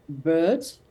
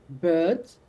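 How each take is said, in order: The two takes are said the same way.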